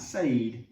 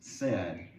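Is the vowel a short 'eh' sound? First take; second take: no; yes. First: The vowel is not a short eh sound. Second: The vowel is a short eh sound. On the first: The speaker calls it wrong. "It's not said" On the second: The speaker calls it right. "it's actually pronounced eh"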